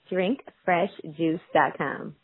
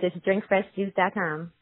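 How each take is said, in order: First: It is said more slowly. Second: It is said fast.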